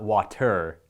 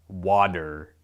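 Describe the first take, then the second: First: The middle consonant sounds like a T. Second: The middle consonant sounds like a D. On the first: "It's not water" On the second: "Water is how we typically pronounce it"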